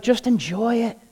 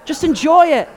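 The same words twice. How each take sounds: First: Said in the usual way. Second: Emphatic brother. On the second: Retold or imitated. Brother repeats advice, stronger.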